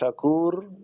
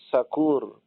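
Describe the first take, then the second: First: The word begins with a sh sound. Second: The word begins with an s sound. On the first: One who accepts gratitude. The speaker calls it right. "Syakur adalah zat yang menerima syukur" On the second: One who is drunk. The speaker calls it wrong. "dibaca Sakur pakai sin, tidak pakai shin"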